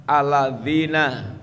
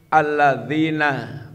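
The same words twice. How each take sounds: Both takes have the same delivery.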